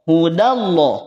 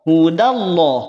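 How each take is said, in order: Both takes have the same delivery.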